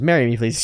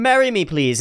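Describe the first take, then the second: First: Said in the usual way. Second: Pleading proposal. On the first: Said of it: "He goes". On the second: Retold or imitated. Cliff begging the princess on the ground, higher desperate plea. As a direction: beg her to marry you from your knees. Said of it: "on the ground going".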